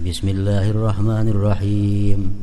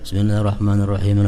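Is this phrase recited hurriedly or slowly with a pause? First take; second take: slowly; hurriedly. First: It is recited slowly, with a pause after it. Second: It is recited quickly, running on without stopping. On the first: The heart can attend to the meaning. The speaker calls it right. "disunatkan kita berhenti di tiap-tiap ayat" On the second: The heart cannot follow the meaning. The speaker calls it wrong. "Coba kita baancap"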